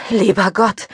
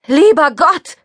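First: A touch of a gasped relief; lightly gasped prayer; gasping. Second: High, loud cry of terror; panicked loud shriek; screaming. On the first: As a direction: breathe it out in shock. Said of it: "keuchte ich". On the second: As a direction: scream it as the car charges at you. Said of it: "schrie ich". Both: A narrator's reading.

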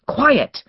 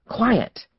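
First: Loud, high, sharp command; ordering. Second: Urging. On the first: Woman to her barking dogs, loud firm order. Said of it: "she ordered once more". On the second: Woman urging her barking dogs to settle, urgent but unshouted. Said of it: "the woman urged". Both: A narrator's reading.

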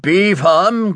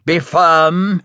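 First: BE appuyé, plus haut, ton ferme; stern reminder. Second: FIRM appuyé en fin de phrase, ton sec; martèle le mot firm, descendant; stern reminder. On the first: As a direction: insiste sur le mot Be, voix dure. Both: A narrator's reading. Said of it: "he reminded her".

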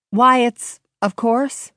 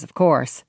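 First: Brighter, higher quoted voice; Virgil's cheerful quote. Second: Said in the usual way. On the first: Acted. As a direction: lift it as Virgil. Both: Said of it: "that's all he said".

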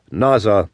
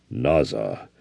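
First: Said in the usual way. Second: Much lower, soft, grave Naza; grave Navajo reply. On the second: A narrator's reading. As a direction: drop the voice deep and quiet for Naza.

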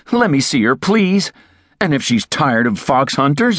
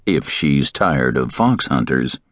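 First: Higher pleading, hunters rising; plead, trailing off on "hunters" raised; begging. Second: Slow, lower, weight on "fox"; ominous emphasis. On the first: A narrator's reading. Terry begging to meet Elena, higher plea. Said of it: "he begged". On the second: Shown as a demonstration. Narrator recalling Terry's words, slow and ominous. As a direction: dwell on "fox hunters" as a warning. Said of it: "The last word should have warned me".

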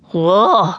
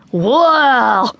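First: Short grunt of a gorilla. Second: Excited gorilla whoop, falling away; gorilla shout. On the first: Female gorilla grunts as boy lands on her belly. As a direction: grunt like a gorilla taking a bump. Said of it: "she grunted". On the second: Boy jumping up and down at the gorillas, shouting. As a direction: call out like a young gorilla. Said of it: "he shouted". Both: A narrator's reading.

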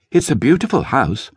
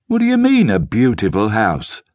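First: Said in the usual way. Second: Blackie sneers at T's word beautiful, high pitched scorn; mock the word beautiful with a high sneer; scornful. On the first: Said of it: "T said". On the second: A narrator's reading. Blackie challenges T before the gang, scornful. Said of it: "Blackie asked with scorn".

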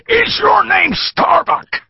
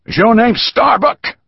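First: Put-on slow, very high, loud drunken shout; shouted question. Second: High, louder pointed question as the small man; a bespectacled man demanding loudly; asked loudly. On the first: Bearded thug shouting at the captive, slow and very high. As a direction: bellow it right in his face. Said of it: "He shouted the question". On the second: Small man demanding the prisoner's name, loudly. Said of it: "he asked loudly". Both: A narrator's reading.

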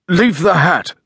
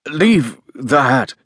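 First: Higher, quick muffled order. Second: Slow, separated words, higher pitch; very distinct. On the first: Guest stopping landlady taking his hat, muffled. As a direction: speak as if through a cloth. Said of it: "in a muffled voice". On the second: Guest repeating his order through a cloth, very distinctly. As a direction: spell out the order word by word. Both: A narrator's reading.

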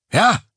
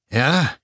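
First: Sharp, high, loud "Ja?" into the phone; near shout. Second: Calmer. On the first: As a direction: blurt it out, startled and tense. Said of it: "er schrie es fast ins Telefon". (fast geschrienes, hohes „Ja?“) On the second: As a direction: pull yourself together and ask again. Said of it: "wiederholte er nach einem Augenblick ruhiger". (ruhigeres, gefasstes „Ja?“) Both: Acted.

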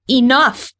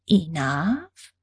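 First: Higher, ringing shout; heroine's defiant outcry; cried out. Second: Softer, mocking questioning echo; sweetly mock the word back, rising; condescending sugary alien tone; syrupy sweet. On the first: Acted. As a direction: cry it out to stop her. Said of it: "I cried". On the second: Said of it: "Her tone was syrupy sweet".

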